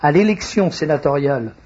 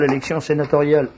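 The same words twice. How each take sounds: First: Plus lentement. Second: Fast, rushed announcement; trop rapide. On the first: (débit plus lent et posé) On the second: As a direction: rattle it off too quickly. (débit trop rapide) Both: Real, not acted. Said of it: "Faut que je parle plus lentement".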